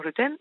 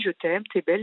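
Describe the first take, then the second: First: «je t'aime» pris plus aigu, moqueur; mocking his je t'aime. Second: Said in the usual way. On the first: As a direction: imite son «je t'aime» avec ironie. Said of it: "je vois que c'est bizarre son". («je t'aime» singé, ironique) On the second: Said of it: "il pleure et il me dit".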